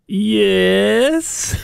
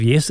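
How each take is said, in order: First: Drawn-out, higher mock-grand yes; imitated affected phone answer; put-on phone voice. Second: Said in the usual way. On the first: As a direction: stretch it out in a put-on telephone voice. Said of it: "put on a different voice". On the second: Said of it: "instead of".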